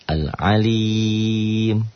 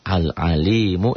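First: The word stops on a bare consonant. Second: The word ends with a short vowel.

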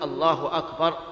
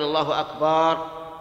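First: No vowel is stretched; the phrase sounds normal. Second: The vowel after the b sound is stretched long. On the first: The speaker calls it right. "لا بد أن يقول الله أكبر" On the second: The speaker calls it wrong. "يمد الباء فيقول"

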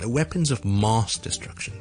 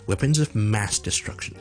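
First: Mass has a long, open ah vowel. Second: Mass has a short a vowel as in cat. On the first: The speaker calls it wrong. "Mass 就唔好将佢读成" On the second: The speaker calls it right. "正确嘅发音咧系一个啊音嘅啊，即系我哋好似读fat"

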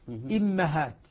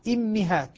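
First: The vowel after the m is a. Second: The vowel after the m is i. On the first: "كسر الهمزة وفتح الميم" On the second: "حمزة يقرأ بكسر الهمزة والميم"

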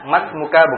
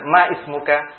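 First: Ma runs straight into smuka with no vowel. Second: An extra i vowel comes between ma and smuka. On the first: The speaker calls it right. "makanya masmuka" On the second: The speaker calls it wrong. "bukan maismuka"

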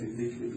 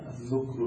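First: The first syllable has the vowel i. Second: The first syllable has the vowel u. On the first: "بكسر الذال" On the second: "بضم الذال"

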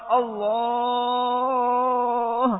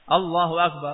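First: The vowel in Allah is drawn out very long. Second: The vowel in Allah is held only briefly. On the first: The speaker calls it wrong. "Karena yang panjang sekali" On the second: The speaker calls it right. "Matobi itu dua harokat"

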